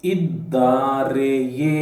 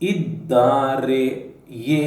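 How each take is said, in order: First: The word is said with its full ending. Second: The word is said with its full ending.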